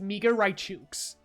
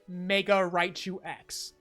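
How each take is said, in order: First: The final X is said like 'kes'. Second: The final X is said as the letter name. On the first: The speaker calls it right. "if I can save one person from embarrassing themselves" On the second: The speaker calls it wrong. "That's not the right way to say it"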